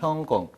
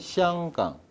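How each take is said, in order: First: It is pronounced the Cantonese way, as Heunggong. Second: It is pronounced the Mandarin way, as Xianggang. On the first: "광동어로 읽으면 형공" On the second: "중국어로 읽으면 샹강"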